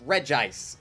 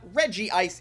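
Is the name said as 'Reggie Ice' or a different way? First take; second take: different way; Reggie Ice. First: The name does not sound like 'Reggie Ice'. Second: The name sounds like 'Reggie' plus 'Ice'. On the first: The speaker calls it right. "it's Regice" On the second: The speaker calls it wrong. "It's not Reggie Ice"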